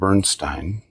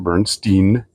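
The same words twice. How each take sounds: First: The last syllable sounds like 'Stein' in Steinway. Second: The last syllable does not sound like 'Stein'. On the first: The speaker calls it right. "that is the pronunciation of his last name" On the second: The speaker calls it wrong. "It's not Bernstein"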